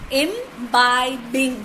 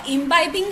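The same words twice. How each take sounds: First: "imbibing" slowly split into im-bi-bing; three separate drawn-out beats on "imbibing"; syllable by syllable. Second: Said in the usual way. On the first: Shown as a demonstration. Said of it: "So three". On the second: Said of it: "imbibing have got three syllable".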